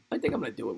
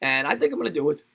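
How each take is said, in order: First: I think I'm gonna do it, much softer and lower; quiet self-affirmation. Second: Said in the usual way. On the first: Real, not acted. Streamer convincing himself about the Vegas trip, quietly. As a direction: say it to yourself, nearly under the breath. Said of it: "repeats plan quietly". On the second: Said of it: "repeats Vegas plan".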